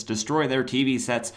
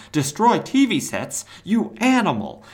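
First: Said in the usual way. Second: Hammed-up indignant outburst; mock outrage. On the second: Ambush Bug aghast at Cobra's threat to TV sets, mock outraged.

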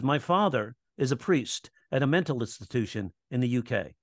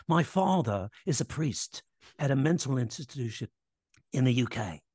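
First: Said in the usual way. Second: Badly faked British accent; hammed-up, unconvincing British accent; horrible UK accent. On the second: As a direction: imitate a British man with a clumsy accent. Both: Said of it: "So that's a really horrible accent".

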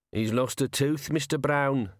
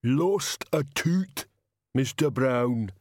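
First: Lightly voiced crook, amused; mildly mocking sidekick; sniggering henchman. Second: Very slow, lumbering giant voice; big, slow-witted heavy; thunderous Banjo. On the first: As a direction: tell on him with a hint of a snigger. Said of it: "said another voice and sniggered". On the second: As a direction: rumble it out slowly like a huge simple brute. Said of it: "said the thunder that was Banjo". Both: A narrator's reading.

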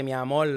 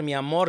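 First: "amor" with the final r turned into l; Boricua pronunciation. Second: Said in the usual way. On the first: Shown as a demonstration. Showing friends his picked-up accent, "amor" ending in an l. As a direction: say "amor" as "amol", Puerto Rican style. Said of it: "je dirais mi amor, je parlerais comme un boricua". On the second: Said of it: "au lieu de dire mi amor".

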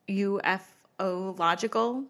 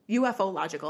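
First: Said in the usual way. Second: U F O logical spelled letter by letter. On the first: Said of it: "U F O logical, all one word". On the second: Shown as a demonstration. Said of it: "all one word".

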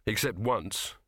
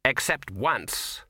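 First: Said in the usual way. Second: Slow, heavy and grim. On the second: A narrator's reading. Ginger answers the patrician in a slow, grim voice. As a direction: let the memory weigh on it, slowly. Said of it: "said Ginger grimly".

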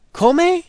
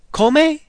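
First: Come? again with a high rise, KO-meh; Italian question. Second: Come? asked high and rising, KO-meh; a questioning Italian Come?, higher. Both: Shown as a demonstration. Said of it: "practice sounding like an Italian".

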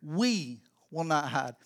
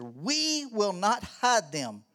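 First: "We" stressed, slow and low. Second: "We" stressed, slow and drawn out. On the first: Pastor repeats the verse to the parents, stressing "We". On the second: Pastor stressing "We" to the parents, slow and weighty. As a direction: lean on "We" in "We will not hide them", slowly. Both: Shown as a demonstration. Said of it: "That thing says".

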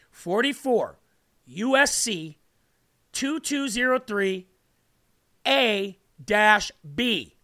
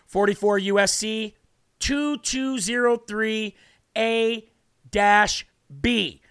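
First: Slow, deliberate reading of the code; said slowly. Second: Said in the usual way. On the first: Shown as a demonstration. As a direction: spell out each part slowly so it sinks in. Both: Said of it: "Let me say it slow".

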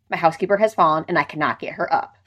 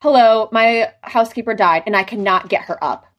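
First: Deadpan. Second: Annoyed. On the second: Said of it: "she sounds so annoyed on the call". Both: Retold or imitated.

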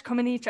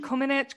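First: Comaneci ending in a long "eech"; tentative pronunciation. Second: Comaneci ending in a short "itch"; tentative pronunciation. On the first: Podcast host guessing at gymnast's surname again, tentative pronunciation. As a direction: try Comaneci with a long ee before the final ch. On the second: Podcast host guessing at gymnast's surname, tentative pronunciation. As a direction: try Comaneci with a short i in the last syllable. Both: Real, not acted. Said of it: "I don't know".

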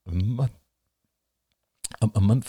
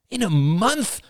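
First: Hushed disbelieving question; stunned question. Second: High, loud cry of disbelief; loud, much higher disbelieving cry; cried out. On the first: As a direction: repeat it in disbelief. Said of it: "Ian swallowed". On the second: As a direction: throw the question out in alarm. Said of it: "cried William". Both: A narrator's reading.

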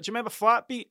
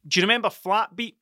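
First: Pitched up, a bit incredulous; quizzing a stranger on the street, higher and nostalgic; mock demo of the question. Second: Said in the usual way. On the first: Shown as a demonstration. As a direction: replay the question about the song lifted high. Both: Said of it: "That's how I said".

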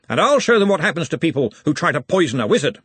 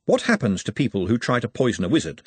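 First: Higher, forceful threat; Ridcully. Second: Said in the usual way. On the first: A narrator's reading. Ridcully vows revenge before next encounter, forceful and higher. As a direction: declare it with menace, pitched up.

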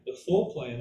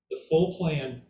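First: Full repeated with stress, a bit lower; stress on full again. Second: Full leaned on, falling; stress on full. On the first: Teacher repeating the phrase, stressing full again. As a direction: press the word full once more. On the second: Teacher to class, stressing full in full plan. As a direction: lean hard on the word full. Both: Shown as a demonstration. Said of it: "that's why I stress that word full".

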